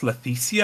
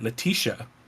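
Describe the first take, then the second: First: The name is said with a Spanish-style pronunciation. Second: The name is said with an English-style pronunciation. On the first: This is how a native speaker says the name. "when she pronounced Leticia" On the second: This is how the name looks written in the book. "it looks like Letitia"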